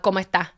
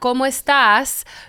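First: Puerto Rican style, the final S is dropped. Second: Other Spanish style, the final S is pronounced.

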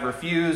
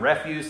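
First: It is said with the verb pronunciation. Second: It is said with the noun pronunciation. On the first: "refuse as the verb" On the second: "refuse as the noun"

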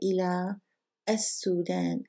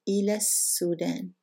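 First: There is a pause before as-Sudan. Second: The words run together without a pause.

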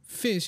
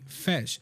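First: The vowel is like the one in bit. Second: The vowel is like the one in bet. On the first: "the animals that live in the sea, fish" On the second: "he would say fesh"

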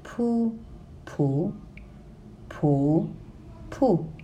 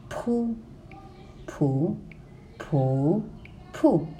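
Both takes have the same delivery.

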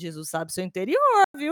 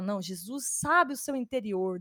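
First: It sounds like a stern, threatening warning. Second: It sounds warm and reassuring.

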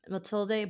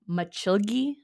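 First: The middle consonant is a plain t sound. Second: The middle consonant sounds like ch. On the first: "people pronounce it" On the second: "the Brazilian pronunciation is"

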